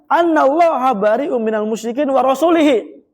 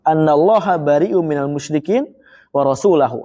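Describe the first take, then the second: First: The last word is said rasulihi, with i-vowel. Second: The last word is said rasulahu, with a-vowel. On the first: God disowns the idolaters and His Messenger. The speaker calls it wrong. "kalau dibacanya wa rasulihi ... Jadi majrur rasulnya" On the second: God and His Messenger both disown the idolaters. The speaker calls it right. "Rasulahu dibacanya nasab"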